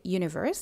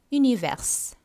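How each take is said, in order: First: Said in the usual way. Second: French "univers", ü-nee-vair; rounded u, no y glide in "univers"; French pronunciation. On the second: Shown as a demonstration. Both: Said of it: "Universe-ஐ நீங்க".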